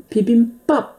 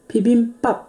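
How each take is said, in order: Both takes have the same delivery.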